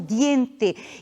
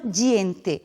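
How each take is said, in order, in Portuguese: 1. Começa com um som de d simples. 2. Começa com um som de dj. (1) "nós pronunciamos como diente" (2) "e não diente"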